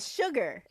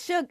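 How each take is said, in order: First: The word ends with a clear R sound. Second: The word ends without an R sound. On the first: This is the plain word used as a nickname. "but Sugar" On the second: This is a casual term of endearment. "not like S U G A, S U G A H"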